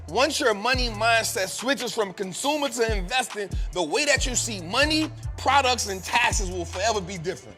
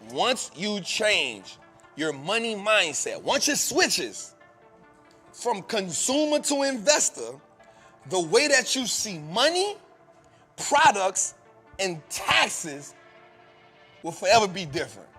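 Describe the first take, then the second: First: It is said at normal speed. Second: It is said more slowly.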